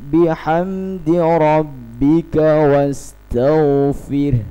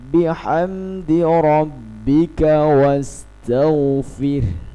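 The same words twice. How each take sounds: The two takes are said the same way.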